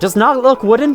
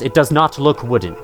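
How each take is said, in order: First: It is said in an odd, hard-to-understand way. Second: It is said in a normal, clear tone. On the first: The speaker calls it wrong. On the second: The speaker calls it right.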